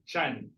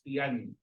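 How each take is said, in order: First: It begins with a 'ch' sound. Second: It begins with a 't' sound. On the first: This is the Filipino pronunciation. "in Filipino, we pronounce this as chan" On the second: This is the Bisaya pronunciation. "in our dialect, which is Bisaya, we pronounce it as tiyan"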